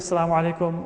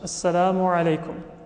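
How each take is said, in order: First: It is said quickly with sounds run together. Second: It is said carefully with every sound pronounced. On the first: The speaker calls it wrong. "Many times you say it quickly" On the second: The speaker calls it right. "all of the letters should be pronounced"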